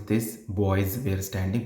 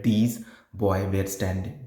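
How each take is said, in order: First: Put-on "These boys were standing", "boys" ending in a clear z; final S sounded. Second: Put-on "These boy were standing", "boy" with no final S; slow misreading, leaving the S off "boy"; S dropped. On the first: Teacher showing how the text reads, final S sounded. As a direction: read it slowly, keeping the S on "boys". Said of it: "the word is". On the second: Teacher showing what you read wrongly, "boy" without its S. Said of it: "but you read". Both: Shown as a demonstration.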